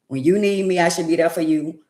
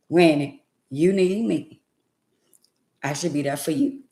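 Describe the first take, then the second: First: It is said at a quicker, normal pace. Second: It is said more slowly and deliberately. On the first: The speaker calls it wrong. "it ain't sound like I said that right" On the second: The speaker calls it right. "Let me let me slow down"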